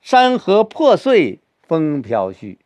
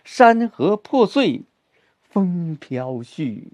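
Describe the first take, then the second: First: The stress falls on the opening words. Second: The stress falls on the closing words.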